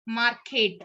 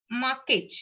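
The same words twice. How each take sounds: First: "market" with the R sounded before the K; American pronounced R. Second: "market" with the R left silent; British R-less pronunciation. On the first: Teacher showing learners American English, "market" with the R pronounced. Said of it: "they will pronounce the R". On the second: Teacher showing learners British English, "market" with a silent R. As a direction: drop the R before the K in "market". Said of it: "the R not pronounced". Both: Shown as a demonstration.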